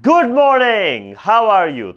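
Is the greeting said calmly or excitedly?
excitedly. The greeting is said with strong excited feeling. The greeting carries strong emotion. "এই ক্ষেত্রে অবশ্যই exclamatory mark বসবে"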